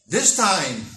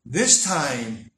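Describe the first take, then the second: First: "this time" with this punched loud; loud emphatic "this time"; stress on THIS. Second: "this time" repeated, this still loud but lower; "this" pressed a little less; stress on THIS again. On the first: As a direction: hit "this" hard and loud. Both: Shown as a demonstration.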